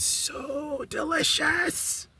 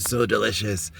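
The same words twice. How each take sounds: First: High, drawn-out squeal of delight; soft, stretched sing-song swoon in a very high voice; gushing delight. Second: Said in the usual way. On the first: Real, not acted. Telling viewers about her curry chicken, gushing. Gushing over the meal she cooked.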